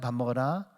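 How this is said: It is said in a soft, gentle tone. The speaker cares about the listener.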